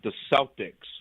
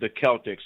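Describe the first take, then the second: First: Celtics is said the Boston local way. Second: Celtics is said the standard way. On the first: This is how the team is named locally. "We call we we we we pronounce it the Celtics" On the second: This follows the name the team is based on. "it's probably the proper pronunciation"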